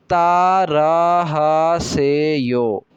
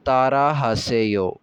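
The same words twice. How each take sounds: First: तारा हासेयो said very slowly, each syllable clear; slow model phrase. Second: तारा हासेयो said slowly and evenly; slowed model phrase. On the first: Korean teacher modelling तारा हासेयो slowly for repetition. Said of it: "तारा हासेयो का मतलब होता है repeat कीजिए". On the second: Teacher to students, saying तारा हासेयो slowly to be repeated. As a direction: repeat तारा हासेयो at a slow, steady pace. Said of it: "जैसे मैं पढ़ रहा हूँ, ऐसे मेरे पीछे दोहराइए". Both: Shown as a demonstration.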